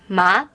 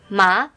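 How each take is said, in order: Both takes have the same delivery.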